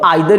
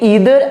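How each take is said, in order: First: The first vowel sounds like 'eye'. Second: The first vowel sounds like 'ee'.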